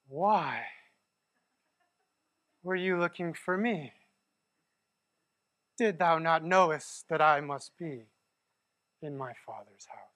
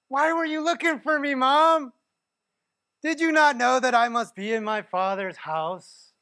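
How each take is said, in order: First: It is said in a lofty, eloquent tone. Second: It is said in a snarky, talking-back tone.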